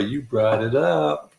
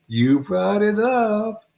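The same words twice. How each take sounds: First: Said in the usual way. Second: High, drawn-out teasing repeat; teasing singsong. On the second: Real, not acted. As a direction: stretch it out, rising high. Teasing repeat of blame to Laura.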